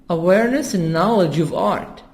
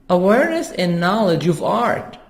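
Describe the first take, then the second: The two takes are said the same way.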